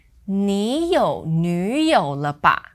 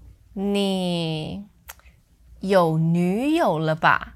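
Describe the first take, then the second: First: "你有女友了吧?" run together, slowly; one smooth, slow phrase with no break; no pause. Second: "你", then a hesitant break; pause after 你. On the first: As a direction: say it all in one breath. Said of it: "without the pause". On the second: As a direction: pause after "你", keeping it third tone. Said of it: "Now notice that I paused after". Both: Shown as a demonstration.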